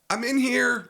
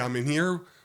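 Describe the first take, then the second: First: It is said in a scared voice. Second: It is said in a calm, normal voice.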